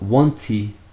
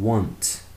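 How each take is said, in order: First: The word ends with an added vowel sound. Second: The word ends cleanly on the consonant. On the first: The speaker calls it wrong. "not wanty" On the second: The speaker calls it right. "Finish with the T sound"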